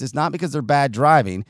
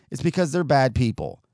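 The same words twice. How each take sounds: First: "driving" weighted then falling, set against people; "driving" carries the beat, dropping at the end; stress on driving. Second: "because" pushed up, "people" falling; "because" emphasised, tune falls to "people"; stress on because. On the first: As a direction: lean on "driving" in "bad driving". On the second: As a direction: hit "because" hard, the correction. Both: Real, not acted.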